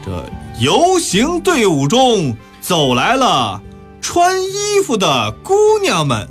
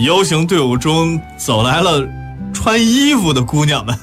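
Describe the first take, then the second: First: It is read loudly, one word at a time. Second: It is read aloud in one smooth flow.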